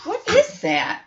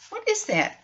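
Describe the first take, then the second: First: Mock alarm. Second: Hushed repeat. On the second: Pretend.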